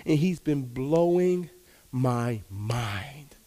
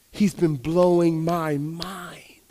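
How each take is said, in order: First: Slow, trailing into a whisper on my mind; whispered awe at what God did; awed whisper. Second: Very slow, drawn-out, voiced; slow spoken wonder after the whisper; slow awed repeat. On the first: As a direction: hush it out in wonder. Awe at God's gifts. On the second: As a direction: let each word land slowly. Repeated in awe. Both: Real, not acted.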